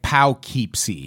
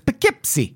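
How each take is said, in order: First: The first syllable rhymes with 'dough'. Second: The first syllable does not rhyme with 'dough'. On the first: This is how the spelling suggests it is said. "it should be like Poughkeepsie. ... Because it's like dough" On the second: This is how it is actually said. "But it's Poughkeepsie"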